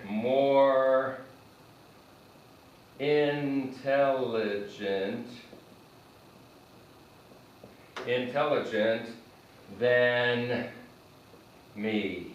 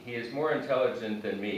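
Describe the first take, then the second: First: Slow, words held apart; slow model phrase. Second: Said in the usual way. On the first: Shown as a demonstration. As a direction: dictate it slowly while writing. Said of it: "let's do this in red". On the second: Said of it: "You can say me".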